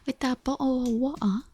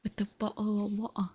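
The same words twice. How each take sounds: First: Bottle said as bo'le, louder, in a mock British accent; hammed-up British accent. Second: Bottle said as bo'le in a mock British accent. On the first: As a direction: overdo the British glottal stop on bottle. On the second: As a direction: swallow the t of bottle, British style. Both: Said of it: "English with a stereotypical British accent".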